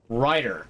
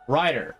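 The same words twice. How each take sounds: First: The name is said in a plain, ordinary way. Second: The name is said with an exaggerated, showy inflection. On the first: It is just an ordinary name. "that doesn't sound like too unusual of a name" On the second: It sounds like the catchphrase "right here". "put a little bit of a different inflection on it"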